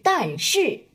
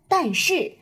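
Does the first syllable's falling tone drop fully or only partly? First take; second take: fully; partly. First: The first syllable falls all the way down. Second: The first syllable falls only partway down. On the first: The speaker calls it wrong. "而不是" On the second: The speaker calls it right. "往往第一个去声降的会没有那么低，类似5 到3"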